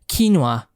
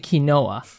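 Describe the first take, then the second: First: The word is pronounced the English way. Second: The word is pronounced the Spanish way. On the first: "she was like, no, it's quinoa" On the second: "I say quinoa because that's how we say it uh, in, in in Spanish"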